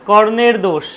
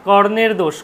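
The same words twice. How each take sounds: The two takes are said the same way.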